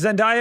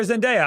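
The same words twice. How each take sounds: First: Zendaya said zen-DIE-uh. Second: Zendaya said zen-DAY-uh. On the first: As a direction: rhyme the middle of Zendaya with "die". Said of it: "don't know if it's [name] or". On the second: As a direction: rhyme the middle of Zendaya with "day". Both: Shown as a demonstration.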